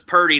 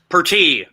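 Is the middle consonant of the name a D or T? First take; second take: D; T. First: The middle consonant is a D sound. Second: The middle consonant is a clear T sound. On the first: The speaker calls it wrong. "Everybody always says Purdy. There's no D" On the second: The speaker calls it right. "you just say it phonetically"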